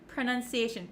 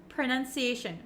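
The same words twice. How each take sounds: No difference in how they are said.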